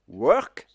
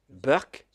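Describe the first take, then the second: First: It starts with a plain W sound. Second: It starts with a B sound, Indian style.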